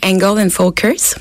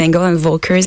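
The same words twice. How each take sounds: First: The V in Völkers sounds like an F. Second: The V in Völkers sounds like a V. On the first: The speaker calls it right. "il faut prononcer le V comme un F" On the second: The speaker calls it wrong. "La majorité des gens disent"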